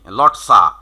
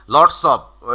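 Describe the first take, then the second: First: "লটসা", lots of run together without the f; contracted "lotsa". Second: Said in the usual way. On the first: Shown as a demonstration. Teacher showing there is no time for full words, "লটসা" contracted. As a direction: drop the f and join it into "লটসা". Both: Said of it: "পুরোপুরি উচ্চারণ করার সময় নেই".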